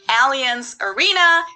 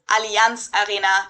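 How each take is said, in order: First: It is said with an English pronunciation. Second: It is said with a German pronunciation.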